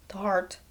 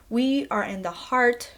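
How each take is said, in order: First: Heart whispered softly, drawn in. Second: Said in the usual way. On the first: Shown as a demonstration. Vlogger stressing the film's core, hushed whisper. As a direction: breathe the heart as if sacred.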